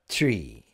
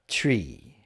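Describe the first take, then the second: No difference in how they are said.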